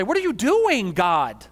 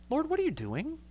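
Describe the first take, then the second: First: Much higher and louder, an exasperated outburst; frustrated. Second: Higher but much softer, sweetened question; more palatable. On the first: Pastor venting at God, loud frustrated demand. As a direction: fire the question at God in frustration. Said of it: "out of frustration". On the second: Pastor rephrasing his complaint to God, sweetened and soft. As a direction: soften it so it sounds nicer. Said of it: "in a way that ... is more palatable". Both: Shown as a demonstration.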